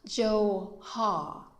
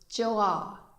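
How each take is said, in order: First: An h sound is heard between the vowels. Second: The vowels join with no consonant between them. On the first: The speaker calls it wrong. "not Jo-ha" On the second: The speaker calls it right. "this word is Joa"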